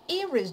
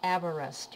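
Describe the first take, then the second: First: The name is pronounced the Welsh way. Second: The name is pronounced the usual English way. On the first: "In Welsh, the pronunciation of Everest sounds Everest" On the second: "But you know that we say Everest"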